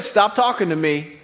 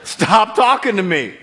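First: Said in the usual way. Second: Slower and louder, each word "Stop talking to me" weighted; God's stern rebuke, slowed for emphasis; firm. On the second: Acted. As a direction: lean into "talking" and make it final. God rebukes Moses, repeated.

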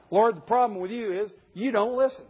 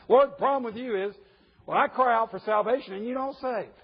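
First: Higher complaint breaking into laughter; laughing quote. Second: Higher, earnest accusing complaint; prophet's complaint. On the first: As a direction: voice Habakkuk while cracking up. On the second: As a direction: state the grievance straight at God. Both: Retold or imitated.

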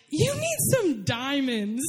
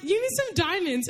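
First: Slow, weighty announcement of the aunt; slow dramatic quote. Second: Said in the usual way. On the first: Retold or imitated. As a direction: drop the line slowly for effect. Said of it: "And then she was like". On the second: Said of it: "So she's like".

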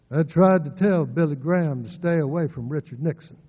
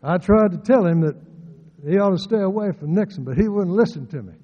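First: A lightly voiced old uncle, a bit louder; Uncle Bill impression. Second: Loud, higher, fast, lips hardly moving; mouth barely open. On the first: Preacher quoting his uncle's warning, a light impression. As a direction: quote the old man, barely moving the lips. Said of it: "I remember him telling me". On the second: Retold or imitated. Preacher mimicking how Uncle Bill spoke, mouth almost shut. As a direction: push it out through a nearly closed mouth. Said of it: "didn't need to open his mouth very much when he spoke".

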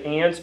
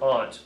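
First: "aunt" said like "ant"; "aunt" rhyming with "pant"; short-a pronunciation. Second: "aunt" said like "ahnt"; "aunt" rhyming with "font"; broad-a pronunciation. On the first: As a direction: say "aunt" with the vowel of "cat". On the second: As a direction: say "aunt" with the vowel of "father". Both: Shown as a demonstration. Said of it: "Do you say aunt or aunt".

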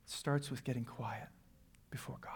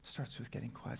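First: Much softer and lower; hushed answer after the challenge. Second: Unvoiced whisper; whispered repeat of the point. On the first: Acted. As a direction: drop to almost nothing. Answer dropped to near silence. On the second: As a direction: breathe it out as a whisper.

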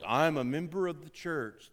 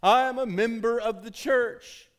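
First: Said in the usual way. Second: Higher, louder, slow mocking voice of a self-important member; mock entitled churchgoer. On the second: Pastor mocking the entitled church member, louder and slow. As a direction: ham up the entitled member, slowly.

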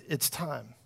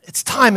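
First: Much softer, lower solemn whisper of "It's time"; hushed divine voice. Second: Lightly voiced preacher declaring it's time; a hint of Lou Engle's solemn delivery. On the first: Retold or imitated. Pastor voicing the Lord waking him, hushed and low. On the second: Pastor quoting Lou Engle in his vision, lightly imitated. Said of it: "he's got this voice".

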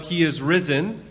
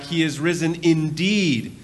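First: Rising on risen, inviting a reply; He is risen with risen rising, a call to answer; call-out line. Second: Slow, with indeed drawn out and falling; He is risen indeed with indeed stretched and falling; lean into indeed. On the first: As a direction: lift risen as a call for response. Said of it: "I'm gonna call out". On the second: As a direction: lean hard on indeed, slowly. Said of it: "really lean into it". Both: Shown as a demonstration.

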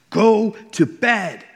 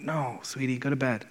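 First: High, loud, slow furious yell; screamed at daughter. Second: Put-on softly, patiently telling a child no; gentle refusal. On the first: Retold or imitated. Exhausted dad losing it at his daughter at 3am, furious shout. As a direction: blow up and bellow each word. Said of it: "I, like, screamed at her". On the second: Dad gently sending his daughter back to bed, soft and patient. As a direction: hush her back to bed kindly.

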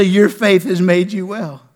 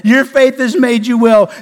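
First: Gentler Jesus quote. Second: Your faith has made you well thrown out loud and full; preached Jesus quote. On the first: Pastor repeating Jesus' words to the church, slow and gentle. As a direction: let it land tenderly, slowly. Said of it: "Jesus will say". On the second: Pastor voicing Jesus to the church, loud preached proclamation. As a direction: proclaim it as the climax of the sermon. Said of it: "just like I said". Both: Acted.

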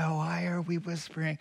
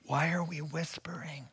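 First: Said in the usual way. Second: Hushed whisper, the question still whispered. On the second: Retold or imitated. Preacher retelling how he questioned the whispering, whispering. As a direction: whisper it, then catch yourself.

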